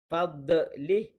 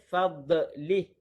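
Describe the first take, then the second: The two takes are said the same way.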